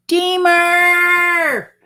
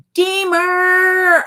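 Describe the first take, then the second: First: Deemer! called high and long, drawn out; high drawn-out greeting Deemer!; called out name. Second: Deemer! again high and drawn out; sung-out name Deemer!; called out name. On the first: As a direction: sing out Deemer! like a welcome. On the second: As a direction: call Deemer! the way she says it. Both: Shown as a demonstration. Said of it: "helped me to remember how to pronounce his name".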